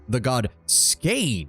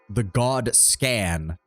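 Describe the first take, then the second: First: The name has a long 'ay' vowel. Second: The name has a short 'a' vowel. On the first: The speaker calls it right. "the God Skane sounds interesting" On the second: The speaker calls it wrong. "the God Scan just doesn't sound very good"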